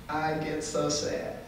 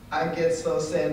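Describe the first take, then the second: First: Quiet sadness. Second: Said in the usual way. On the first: Real, not acted.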